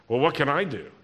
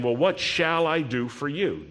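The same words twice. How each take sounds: First: Exasperated, at a loss, throwing up hands; helpless shrug. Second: Earnest, genuinely offering help; sincere offer. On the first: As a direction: Elisha sounding helpless, wrong reading: exasperated shrug. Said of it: "I don't think that's the right way". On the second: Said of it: "I think he's saying". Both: Shown as a demonstration.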